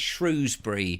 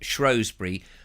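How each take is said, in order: First: The first vowel sounds like the vowel in 'too'. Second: The first vowel sounds like the vowel in 'go'. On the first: The name is taken to come from the animal. The speaker calls it wrong. "They're the Shrews, so obviously it's" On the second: The older traditional local pronunciation. The speaker calls it right. "people use an O and go"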